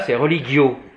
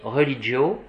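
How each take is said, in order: First: The g is said as a hard 'g' sound. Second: The g is said as a soft 'dj' sound. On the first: "Tandis que là" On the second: "le G, c'est DJ"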